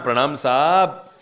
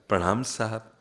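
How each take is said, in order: First: The greeting sounds stiff and proud. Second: The greeting sounds soft and humble.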